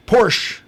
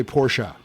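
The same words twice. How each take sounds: First: "Porsche" as a loud, high PORSH; one-syllable pronunciation. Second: "Porsche" as POR-shuh; two-syllable pronunciation. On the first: Host announcing the disputed brand name, "Porsche" punched as one syllable. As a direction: punch out "Porsche" with no final vowel. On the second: Host settling the pronunciation debate, "Porsche" as POR-shuh. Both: Shown as a demonstration. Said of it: "I'll say Porsche".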